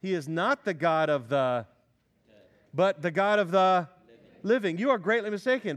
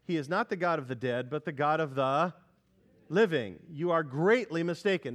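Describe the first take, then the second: First: Read with force. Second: Said in the usual way. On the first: Shown as a demonstration. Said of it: "Look at verse twenty-seven". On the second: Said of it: "read aloud".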